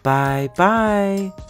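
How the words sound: It is said in a middle-sized voice.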